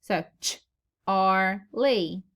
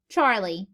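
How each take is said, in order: First: Ch-ar-lee split slowly with stress on ch; slow split ch-ar-lee, first syllable stressed. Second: Said in the usual way. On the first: Shown as a demonstration. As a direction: break ch-ar-lee apart slowly, leaning on the first part. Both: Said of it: "we accent the hardest".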